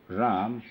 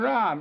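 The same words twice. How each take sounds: First: The word is said in a plain, even way. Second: The word is drawn out in an agonized way. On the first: It is simply a name being repeated. "instead of saying just Ram" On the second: The speaker is suffering from thirst. "you see that painful Ram"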